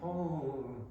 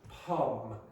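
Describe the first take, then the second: First: The vowel is said with a nasal sound. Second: The vowel is said without nasal sound. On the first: The speaker calls it wrong. "I am not going pom" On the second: The speaker calls it right. "So for me, this is pom"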